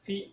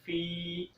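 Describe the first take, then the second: First: The vowel after f is cut short. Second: The vowel after f is held long. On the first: The speaker calls it wrong. "फ़ा को लंबा नहीं करते। ... तो ये गलत है" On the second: The speaker calls it right. "फ़ा को एक अलिफ के बराबर लंबा करेंगे।"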